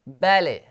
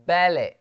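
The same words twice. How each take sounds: Both takes have the same delivery.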